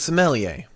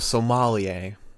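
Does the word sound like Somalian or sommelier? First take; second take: sommelier; Somalian. First: It is said like the wine word sommelier. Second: It is said like the word Somalian. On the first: This is the character's actual role. "is a sommelier" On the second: This is the joke nickname used on the show. "everyone on the show calls him a sommelier"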